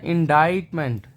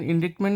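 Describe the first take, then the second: First: इंडाइटमेंट said in-DITE-ment, with a silent c; the right way: इंडाइटमेंट, rhymes with bite; correct pronunciation. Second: इंडिक्टमेंट said in-DICT-ment, with the c sounded; the common mistake: इंडिक्टमेंट with a k; wrong pronunciation. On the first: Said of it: "इसका pronunciation है इंडाइटमेंट". (सही उच्चारण: इंडाइटमेंट, c silent) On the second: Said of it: "लेकिन इंडिक्टमेंट नहीं". (गलत उच्चारण: इंडिक्टमेंट, क बोलते हुए) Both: Shown as a demonstration.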